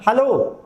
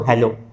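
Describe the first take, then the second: First: It is called out to get attention. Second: It is said as a calm face-to-face greeting.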